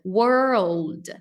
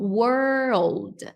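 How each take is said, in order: First: It is split into two separate parts. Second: It is split into two separate parts.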